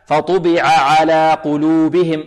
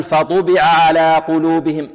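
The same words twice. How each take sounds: First: فطبع said slowly with the ب vowel given in full; correct reading. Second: فطبع with the ب vowel rushed and half-swallowed; snatched vowel. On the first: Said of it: "لا نقول". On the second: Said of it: "اختلاس، لا". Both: Shown as a demonstration.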